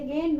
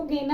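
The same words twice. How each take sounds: First: "गेंद" as one syllable with nasal n; poprawna wymowa. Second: "गेंद" as "ge-nad", with a separate n syllable; błędna wymowa. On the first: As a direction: glide through the nose straight to d in "गेंद". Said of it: "इसको क्या बोलेंगे?". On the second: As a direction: sound a full "na" inside "गेंद". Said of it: "नहीं बोलेंगे". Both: Shown as a demonstration.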